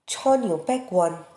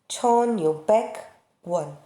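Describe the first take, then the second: First: It is said quickly and smoothly, without pausing. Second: It is said slowly, with a pause inside. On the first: "Se falarmos com fluidez, falaremos rápido" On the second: "se você quiser fazer uma pausa, falar devagar"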